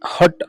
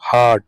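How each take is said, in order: First: The vowel is short, like in hut. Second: The vowel is long, like ah. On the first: The speaker calls it wrong. "హట్ అని అంటాము... అది తప్పు" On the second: The speaker calls it right. "హార్ట్ అనాలి"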